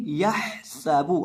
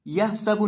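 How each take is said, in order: First: यह सबू slowly, with a distinct breathy ha held out; clear ha. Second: यह सबू hurried and higher, the breathy ha lost; wrong unclear ha. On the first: Teacher correcting the mistake, clear drawn-out ha in यह सबू. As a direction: sound the ha of यह fully in यह सबू. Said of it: "हा को आपने वाज़े करके पढ़ना है". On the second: Teacher showing pupils the mistake, unclear short ha in यह सबू. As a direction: skim over the ha in यह सबू. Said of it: "यह सबू नहीं". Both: Shown as a demonstration.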